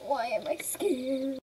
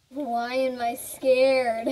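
First: Said in the usual way. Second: Nervous excitement. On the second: Real, not acted.

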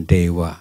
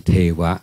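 First: "เทวะ" begun with a voiced d, like dewa; Pali-style d sound. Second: "เทวะ" begun with an aspirated t, like thewa; Thai-style th sound. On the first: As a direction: say "เทวะ" with d as in English "day". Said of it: "มันจะออกเสียงเป็นตัวเด็ก". (ออกเสียง "เทวะ" ขึ้นต้นด้วยเสียง ด เด็ก เป็น "เดวะ") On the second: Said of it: "ไม่ใช่ทอทหาร". (ออกเสียง "เทวะ" ขึ้นต้นด้วยเสียง ท ทหาร แบบไทย) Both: Shown as a demonstration.

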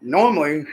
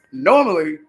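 First: Said in the usual way. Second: Laughing through the word normally, louder; amused repeat of normally, louder. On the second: Real, not acted. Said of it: "laughs normally".

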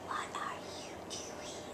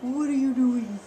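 First: Whisper. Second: Said in the usual way. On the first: Real, not acted. Parent whispering to the baby in the crib. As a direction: hush it right down. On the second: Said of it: "repeated as a whisper".

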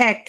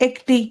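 First: এক with an open "æ", "æk"; wide first vowel in এক. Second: একটি begun with a close "e", "ekti"; close vowel. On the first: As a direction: demonstrate এক with the open sound. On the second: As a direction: narrow first vowel in একটি. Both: Shown as a demonstration. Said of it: "এর আমি কয় রকম উচ্চারণ বললাম".

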